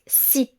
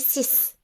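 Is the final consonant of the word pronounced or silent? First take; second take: silent; pronounced. First: The final consonant is not pronounced. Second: The final S sound is clearly pronounced. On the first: A word starting with a consonant follows. "on prononce si" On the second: Nothing follows the number. "on prononce bien le S"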